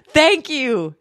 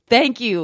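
First: High, chirpy "Thank you"; bright thank you. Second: Said in the usual way. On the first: Shown as a demonstration. Showing viewers how to accept a compliment, bright and high. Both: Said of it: "[name], say, "Thank you".

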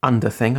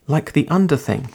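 First: UNDER THING rising at the end; questioning. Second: UNDER lifted, then falling away; statement. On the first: A narrator's reading. Narrator querying the girl's odd word, rising question. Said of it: "I asked". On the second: Acted. Girl describing somewhere cosy, falling statement. Girl names her home.

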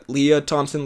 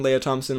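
First: Lea said lee-uh. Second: Lea said lay-uh. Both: Shown as a demonstration. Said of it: "I'm not sure how to say it".

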